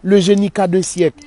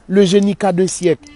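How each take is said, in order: First: The phrase is slurred, sounding like qu'a d'un. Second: The phrase is slurred, sounding like qu'a d'un.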